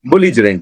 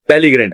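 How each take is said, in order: First: The word is said with a j sound. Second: The word is said with a hard g sound. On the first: The speaker calls it right. "बेलीग्रेंट नहीं है, बुलिजरेंट है" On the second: The speaker calls it wrong. "Pronunciation में मेरी थोड़ी गलती हो गई है"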